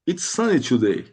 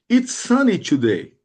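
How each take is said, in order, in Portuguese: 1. É falada em um ritmo rápido. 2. É falada em um ritmo mais lento.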